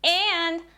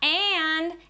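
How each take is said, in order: Both takes have the same delivery.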